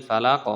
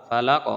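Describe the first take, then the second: The two takes are said the same way.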